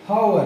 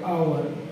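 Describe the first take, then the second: First: The word starts with an h sound. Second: The word starts with a vowel sound. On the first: "अपन जो हिंदी करते हैं वो हावर करते हैं" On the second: "हावर में भी आवर होता है"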